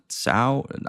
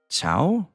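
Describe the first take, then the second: First: The name begins with an s sound. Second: The name begins with a ch sound.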